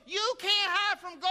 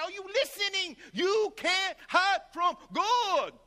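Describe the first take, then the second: First: High, far-off preacher voice imitating him; street preacher warning. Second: High, slow, shouted imitation of the preacher; shouted preacher warning. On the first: Imitating the preacher's first take, pitched high. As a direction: mimic the old preacher's warning. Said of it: "he go". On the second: Imitating the preacher's slow shouted take. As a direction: bellow it slowly like a street preacher. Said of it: "He would do all these variations".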